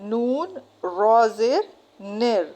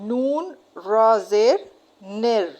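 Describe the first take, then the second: No difference in how they are said.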